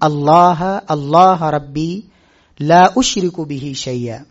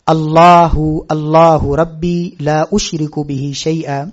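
First: Each 'Allah' ends without any added vowel. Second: Each 'Allah' ends with an added 'u' vowel. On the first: The speaker calls it right. "इसको अल्लाह अल्लाह रब्बी पढ़ना है" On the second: The speaker calls it wrong. "अल्लाहु नहीं है, ये जम्मा नहीं"

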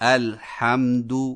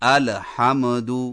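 First: The unvowelled consonant is held firm without movement. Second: The unvowelled consonant shakes with a slight vowel. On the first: The speaker calls it right. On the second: The speaker calls it wrong.

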